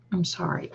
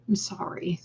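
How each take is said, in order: First: Said in the usual way. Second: Soft unvoiced whisper; whispered sorry. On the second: Real, not acted. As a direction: whisper it gently in sympathy. Sympathy to viewer's sad comment.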